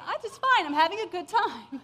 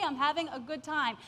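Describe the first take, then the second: First: Higher, louder blurt. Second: Said in the usual way. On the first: Retold or imitated. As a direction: announce it brightly to the guards. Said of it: "that's what came out of my mouth". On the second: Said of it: "then I thought again".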